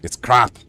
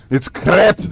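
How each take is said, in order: First: CRAP tried lower and softer in a Scots accent; retry "crap" low, with an open vowel; Scottish pronunciation retry. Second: CRAP in an attempted Scots accent, rising at the end; attempted Scottish pronunciation. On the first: Streamer retrying the part they can't do, Scottish "crap". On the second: Streamer failing the hard part of the catchphrase, Scottish "crap". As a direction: overdo the Scottish sound of "crap". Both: Shown as a demonstration. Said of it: "I can't do that part".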